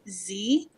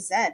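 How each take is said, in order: First: The letter is pronounced zee, the American way. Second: The letter is pronounced zed, the Canadian way. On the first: "I'm actually pronouncing it properly for Jim today" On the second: "as Canadians we say Z"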